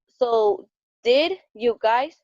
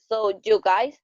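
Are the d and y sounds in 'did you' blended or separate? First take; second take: separate; blended. First: The d and y are said as separate sounds. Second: The d and y blend into a j sound.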